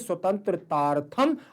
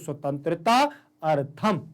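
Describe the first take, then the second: First: The two words merge into one with one long vowel. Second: The two words are said separately, both vowels kept. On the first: "अगर दोनों शब्दों को एक साथ पढ़ेंगे" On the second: "और अलग अलग पढ़ेंगे"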